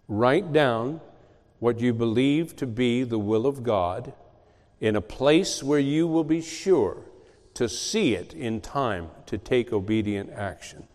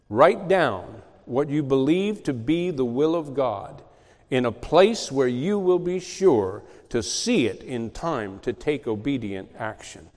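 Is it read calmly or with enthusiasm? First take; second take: calmly; enthusiasm. First: It is read in a calm, plain way. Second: It is read with lively enthusiasm.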